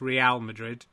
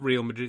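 First: Real is said as two syllables, re-al. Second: Real is said as the English word real. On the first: The speaker calls it right. "it's Real Madrid" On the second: The speaker calls it wrong. "it's not Real Madrid"

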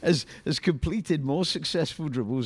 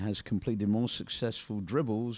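First: The reading is lively and high in energy. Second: The reading is flat and low in energy. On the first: The speaker calls it right. "There we go" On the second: The speaker calls it wrong. "you're reading it like an old woman"

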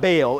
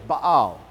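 First: The word is said as one syllable. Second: The word is said as two syllables. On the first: The speaker calls it wrong. "So it's not Baal" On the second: The speaker calls it right. "it's Baal. And there's a little apostrophe between the A's"

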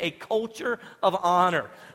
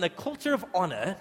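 First: It is said in his ordinary American accent. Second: It is said in a put-on British accent.

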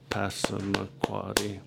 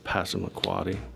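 First: It is said slowly with five claps. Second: It is said quickly with one clap. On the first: "you would clap once for each syllable, and you would do it pretty slow" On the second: "If I asked you to clap once"

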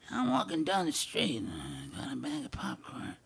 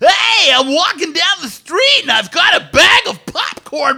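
First: It is said in a low-key, downplayed way. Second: It is said in a big, cartoony way.

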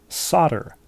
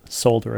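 First: The word is not said as it is spelled. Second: The word is said just as it is spelled. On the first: The speaker calls it right. "only after several years did she discover that it's pronounced solder" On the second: The speaker calls it wrong. "Of course you would pronounce that solder if you hadn't heard"

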